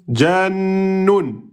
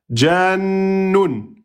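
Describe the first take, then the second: No difference in how they are said.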